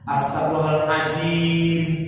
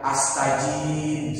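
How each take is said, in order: First: The phrase is said fully with every syllable. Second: The phrase is slurred into a short clipped form. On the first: The speaker calls it right. "misalkan astagfirullahaladzim" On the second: The speaker calls it wrong. "masih banyak yang astajim"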